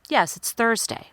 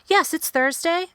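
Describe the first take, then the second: First: The pitch falls at the end. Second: The pitch rises at the end. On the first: The speaker gives a finished, confident answer. The speaker calls it right. "I need to go down in pitch at the end" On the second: The speaker does not sound finished or sure. The speaker calls it wrong. "if I answer with that same intonation"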